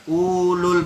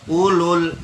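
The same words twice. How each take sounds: First: The first vowel is drawn out long. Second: The first vowel is kept short. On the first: The speaker calls it wrong. "bukan ulul, bukan begitu" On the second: The speaker calls it right. "matopi yang di depan itu dinolkan, jadi tidak dibaca matopinya"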